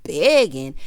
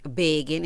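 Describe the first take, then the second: First: Loud, punched mock disbelief; retold scornful echo. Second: Said in the usual way. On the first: Retelling him echoing her taunt, loud mock disbelief. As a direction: throw the word back loudly, imitating him. He throws her word back.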